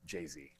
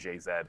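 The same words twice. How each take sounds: First: The final letter is said the American way. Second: The final letter is said the Canadian way. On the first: The speaker calls it right. "it should be Z because that's what rhymes" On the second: The speaker calls it wrong. "I say it the Canadian way"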